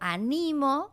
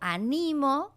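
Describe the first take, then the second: First: The stress is on the second syllable. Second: The same.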